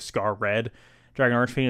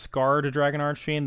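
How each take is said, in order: First: The first part is said as separate words scar red. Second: The first part sounds like the single word scarred. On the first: This is the original name. "I'm going to continue to say Scar Red Dragon Archfiend" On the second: This is the localized name. "if it's pronounced Scarred Dragon Archfiend"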